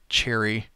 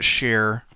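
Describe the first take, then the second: First: The name is said as two syllables, like 'cherry'. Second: The name is said as one syllable, like 'share'. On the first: The speaker calls it right. "I'm pretty sure I saw the other day it's pronounced cherry" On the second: The speaker calls it wrong. "I've been pronouncing it share"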